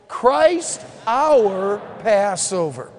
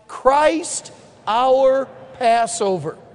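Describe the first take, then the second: First: The word "our" is stressed. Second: No word is given special stress.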